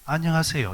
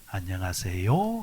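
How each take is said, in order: First: The pitch is high at the start of the greeting. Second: The pitch rises at the end of the greeting. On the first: "경상도로 오면 어디가 올라와요? 앞에가 와요" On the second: "서울말은 어디가 올라갑니까? 말꼬리가 올라가죠"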